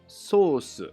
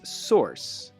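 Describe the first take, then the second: First: It is said with a Japanese pronunciation. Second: It is said with an American English pronunciation. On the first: "in Japanese, it's sauce" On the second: "In American English, it's source. It sounds like course or horse"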